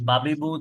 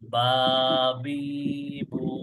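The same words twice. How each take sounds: First: The vowels are short and said quickly. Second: The vowels are stretched and drawn out. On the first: "তাড়াতাড়ি" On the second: "যদি টান দেই"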